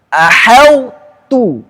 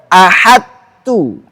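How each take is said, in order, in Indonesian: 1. Sifat tebal tetap terbaca sebelum t. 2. Bunyi tebal itu melebur sepenuhnya menjadi t biasa. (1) "Sifat itbaqnya harus terbaca. Tidak boleh hilang" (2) "Tidak boleh"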